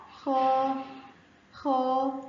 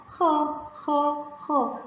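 First: خا with a long, held aa; long madd vowel. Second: خا said as a short, separate syllable; short fatha sound. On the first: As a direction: stretch out the vowel in خا. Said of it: "خاء فتحة ومد بالألف هتبقى". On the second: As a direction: repeat خا with a brief a vowel. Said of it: "الصوت القصير بتاع الفتحة". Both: Shown as a demonstration.

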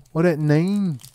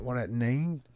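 First: High, loud exclamation; loud call. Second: Said in the usual way. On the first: Pretend. Streamer repeats the pack question, loud and high. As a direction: belt it out high.

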